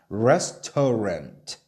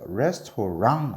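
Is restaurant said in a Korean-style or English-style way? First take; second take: English-style; Korean-style. First: It is said with English-style sounds. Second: It is said with Korean-style syllables. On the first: The speaker calls it right. "restaurant라고 해야 돼요" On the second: The speaker calls it wrong. "restaurant 아니에요. ... 레스토랑이라고 하면 안 돼요"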